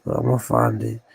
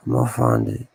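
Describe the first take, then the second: First: Said in the usual way. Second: I'ma find it in a much lower, heavier register; deep put-on voice. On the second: Vowing to viewers to find it, deep put-on voice. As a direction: drop the voice way down low on I'ma find it. Repeats line in a new voice.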